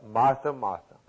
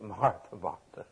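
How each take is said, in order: First: Said in the usual way. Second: Soft, tender, dropping to a near hush; lovingly. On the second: Shown as a demonstration. Jesus gently calling Martha's name, tender and hushed. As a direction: say her name twice with gentle love. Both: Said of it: "That's lovingly".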